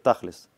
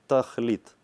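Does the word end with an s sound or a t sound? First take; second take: s sound; t sound. First: The word ends with an s sound. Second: The word ends with a t sound.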